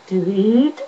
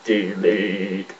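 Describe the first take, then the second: First: High-pitched robot voice; Cyberman. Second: Low, drawn-out robot voice; deep robotic command; Cyberman. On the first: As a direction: lift the pitch and end on a rise. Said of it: "Cyberman with a high pitched voice". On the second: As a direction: drop low and intone it like a machine. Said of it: "if you do it a bit lower". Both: Shown as a demonstration.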